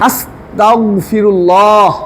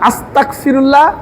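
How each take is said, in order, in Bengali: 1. 'asta'-র পরের ব্যঞ্জনটি একটি গলার ভেতর থেকে আসা 'gh'। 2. 'asta'-র পরের ব্যঞ্জনটি একটি শক্ত 'k'। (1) "আল্লাহ আমরা আল্লাহর কাছে মাফ চাই" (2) "ক দিয়া"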